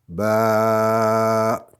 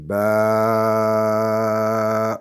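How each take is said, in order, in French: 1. La voyelle est tenue pendant quatre temps. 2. La voyelle est tenue pendant six temps. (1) "quatre fois plus long" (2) "six fois plus long"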